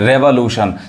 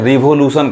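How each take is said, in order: First: The first syllable has an 'eh' vowel. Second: The first syllable has an 'ee' vowel. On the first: The speaker calls it right. "It's रेवोल्यूशन" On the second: The speaker calls it wrong. "बहुत लोग गलत पढ़ते हैं, रिवोल्यूशन कहते हैं, जो कि क्या है, गलत उच्चारण है"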